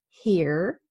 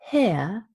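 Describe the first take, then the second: First: The word ends with a clear R sound. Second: The word ends in a schwa, with no R. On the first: "North American English" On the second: "British English"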